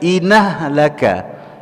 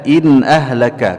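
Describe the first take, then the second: First: The nun links straight into the vowel, without hamzah. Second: The hamzah after 'in' is pronounced clearly.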